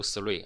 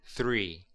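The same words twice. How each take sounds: First: Three said as sree, with an s instead of th; wrong s-sound three. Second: Three with the tongue between the teeth, a clear voiceless th; proper th in three. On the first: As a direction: mispronounce three with the tongue behind the teeth, like sree. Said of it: "千万不要读three啊". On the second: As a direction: say three with a bitten-tongue th sound, not s or f. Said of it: "舌头要放在牙齿之间". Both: Shown as a demonstration.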